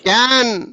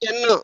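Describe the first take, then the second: First: The vowel is the open 'a' as in cat. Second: The vowel is the 'e' as in bed. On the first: It names a container used in the kitchen. "క్యాన్ అన్నప్పుడు short ఏ" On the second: It is the helping verb meaning able to. "ఇది కెన్"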